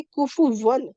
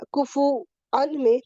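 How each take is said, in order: First: کفو ون with a clear w sound, hamza turned to واو. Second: کفو ان with a glottal catch, hamza kept. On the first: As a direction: say کفو ون slowly with a w glide. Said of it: "واو کی sound آئے گی پھر". (کفو ون واو کی آواز کے ساتھ) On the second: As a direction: say کفو ان slowly, the hamza clear. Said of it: "تو اب ہم اس کو چاہے تو کفو ان ہی پڑھیں". (کفو ان حمزہ کے ساتھ) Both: Shown as a demonstration.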